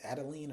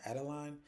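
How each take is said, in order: First: "Adeline" with a long ee in the last syllable; Adeline ending in "leen". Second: "Adeline" rhyming its last syllable with "fine"; Adeline ending in "line". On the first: Unsure of a club lady's name, Adeline said as ADD-uh-leen. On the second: Offering the other guess at her name, Adeline said as ADD-uh-line. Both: Shown as a demonstration. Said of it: "I think it's Adeline or Adeline".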